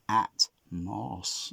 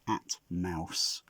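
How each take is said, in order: First: The second syllable sounds like the word moss. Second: The second syllable sounds like the word mouse. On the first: "like moss on a stone" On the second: "I'll do a little little illustration of a mouse"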